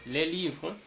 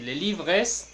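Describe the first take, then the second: First: Les livres with a silent final S; les livres ending on the R, no S sound; correct pronunciation. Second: Les livres with the final S sounded; wrong pronunciation. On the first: Teacher showing students the right way, silent S in les livres. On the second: Teacher showing students the wrong way, final S sounded in les livres. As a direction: say les livres pronouncing the S at the end. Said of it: "no vamos a decir". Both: Shown as a demonstration.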